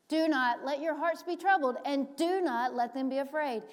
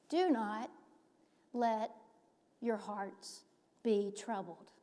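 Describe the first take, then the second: First: Louder, raised command; emphatic command. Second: Slow, deliberate, each word apart; emphatic. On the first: Preacher quoting Jesus to disciples, emphatic. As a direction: proclaim it firmly. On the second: Preacher showing how firmly Jesus spoke, emphatic and slow. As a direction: pause between "Do not" and "let". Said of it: "Jesus is emphatic here". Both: Acted.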